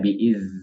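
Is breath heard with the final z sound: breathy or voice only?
breathy. The z sound lets breath escape with the voice. The speaker calls it wrong. "Jadi tidak biiz"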